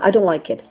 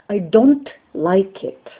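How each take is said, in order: First: The T of don't is dropped. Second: The N and T of don't are distinctly pronounced. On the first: The speaker calls it right. "without the T, that's fine" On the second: The speaker calls it wrong. "What I also don't like is when people say"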